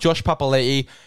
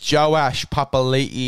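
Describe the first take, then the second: First: The first name is said as one syllable. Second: The first name is said as two syllables. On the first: The speaker calls it wrong. "it's not Josh Papali'i" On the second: The speaker calls it right. "it's Joash Papali'i, and I believe that's how you pronounce it"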